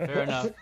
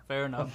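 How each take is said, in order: First: Laughing. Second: Said in the usual way. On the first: Real, not acted.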